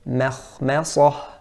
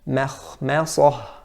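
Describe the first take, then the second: No difference in how they are said.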